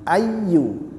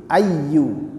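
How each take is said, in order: The two takes are said the same way.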